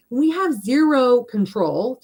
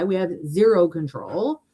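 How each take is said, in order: First: Slow, higher, stress on "have" and "zero control"; slow emphatic. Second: Said in the usual way. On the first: Real, not acted. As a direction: lean on "have" slowly, every word weighted.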